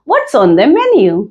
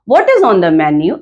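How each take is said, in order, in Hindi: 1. शब्द 'what' और 'is' मिलकर 'whats' बन जाते हैं। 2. शब्द 'what' और 'is' अलग-अलग बोले जाते हैं। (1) "इसे हम कॉन्ट्रैक्शन कहते हैं" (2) "ये भी सही है"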